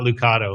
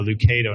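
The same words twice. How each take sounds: First: The middle syllable sounds like 'kah'. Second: The middle syllable sounds like 'kay'. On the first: The speaker calls it wrong. "not Lucado" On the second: The speaker calls it right. "remember Kay"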